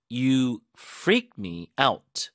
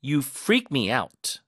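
First: You freak me out, very slow, freak and out punched, rising at the end; stress on freak and out. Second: You freak me out, freak and out both punched, very slow; stress on freak and out. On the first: Teacher repeats the drill, stressing freak and out. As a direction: lean on freak and out, end on a rise. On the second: Teacher drills the stress on freak and out slowly. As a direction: hit freak and out slowly and clearly. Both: Shown as a demonstration. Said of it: "양쪽에 힘 주세요".

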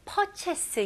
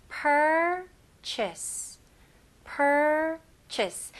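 First: "purchase" said with a weak R, like "pot-chess"; "purchase" without the R, the way not to say it; wrong pronunciation. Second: "purchase" with a strong, stressed R in the first syllable; "purchase" with a firm R and a short "chase" ending. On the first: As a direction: drop the R in "purchase" as the bad example. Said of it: "이런 식으로 하시면 안 되고". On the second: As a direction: lean hard on the R of "purchase". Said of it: "R는 힘을 주셔야 됩니다". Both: Shown as a demonstration.

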